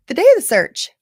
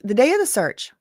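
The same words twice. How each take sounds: First: Yawning. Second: Said in the usual way. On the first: Real, not acted. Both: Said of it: "I don't know why I'm yawning so much".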